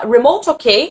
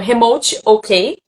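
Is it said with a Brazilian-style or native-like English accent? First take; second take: native-like; Brazilian-style. First: It is said with a native-like English accent. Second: It is said with a Brazilian Portuguese accent.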